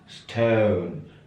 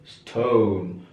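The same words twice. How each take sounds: First: The vowel glides like 'eu', British style. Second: The vowel is a rounded 'oh', American style. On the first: "Ini stone" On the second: "American oh"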